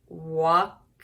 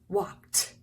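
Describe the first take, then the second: First: The ending is an extra id syllable. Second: The ending is a short t sound. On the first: The speaker calls it wrong. "We wouldn't say walked, that'd be weird" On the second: The speaker calls it right. "did you hear that sound? A T"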